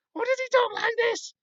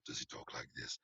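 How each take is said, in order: First: Much higher and louder falsetto; squeaky high villain voice. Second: Breathy whisper, almost no voice; whispered villain voice. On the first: Reader testing a villain voice, squeaky falsetto. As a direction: try him as a shrill squeaker. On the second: Reader testing a villain voice, whispering. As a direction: try him as a whisperer. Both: Shown as a demonstration. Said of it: "How does the God of the Razor talk?".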